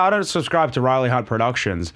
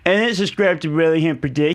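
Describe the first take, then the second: First: It is said in a normal speaking voice. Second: It is said in a silly mocking put-on voice. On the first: The original remark. "one of your mates will be all like" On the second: It parrots the remark to make fun of it. "they repeat it back to you in that voice"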